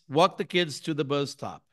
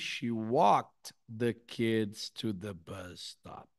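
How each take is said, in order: First: It is said fast, with the words run together. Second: It is said slowly, each word clearly separated.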